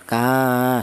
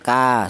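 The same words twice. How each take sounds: First: The vowel is long, held two beats. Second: The vowel is short, held one beat. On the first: An alif follows the letter. "Berhubung ada alifnya maka dipanjangkan" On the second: There is no alif after the letter. "ini juga dibaca pendek satu harokat"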